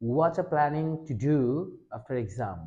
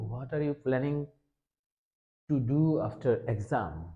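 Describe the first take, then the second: First: 'What are you' is blended into one word, 'whatcha'. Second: Each word of 'what are you' is said separately. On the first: The speaker calls it right. "ওয়াচা ওয়াচা" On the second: The speaker calls it wrong. "এরকম একটা common English আমরা বলি সচরাচর"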